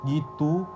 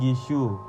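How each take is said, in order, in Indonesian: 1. Konsonan tengahnya bunyi t biasa. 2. Konsonan tengahnya terdengar seperti ch atau sh. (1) "fonem T" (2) "fonem T yang diucapkan C"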